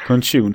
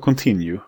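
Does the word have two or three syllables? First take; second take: two; three. First: The word is said with two syllables. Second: The word is said with three syllables. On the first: The speaker calls it wrong. "Jag sa contune" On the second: The speaker calls it right. "istället för continue"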